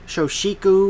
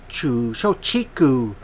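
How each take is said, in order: First: The middle consonant is an 'sh' sound. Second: The middle consonant is a 'ch' sound. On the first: "I don't know if they pronounced their C H with the S or not" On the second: "I hope I'm saying that right"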